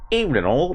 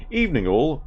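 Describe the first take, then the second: First: Much higher, broad Australian greeting; hammed Australian accent. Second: Lightly put-on English greeting; a hint of a British bloke; English accent. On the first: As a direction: greet like a bloke from the outback, hammed up. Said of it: "I don't know how to do a Pommy accent". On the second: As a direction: try a posh English hello, a bit higher. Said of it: "he's a pom".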